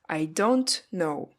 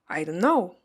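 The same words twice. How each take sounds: First: The t in 'don't' is released. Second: The t in 'don't' is dropped. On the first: "seems too long" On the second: "I don't pronounce it in the word don't"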